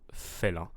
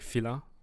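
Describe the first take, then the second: First: The first vowel sounds like 'ay'. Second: The first vowel sounds like 'ee'. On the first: The speaker calls it right. "but we want félin" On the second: The speaker calls it wrong. "I'm hearing filin"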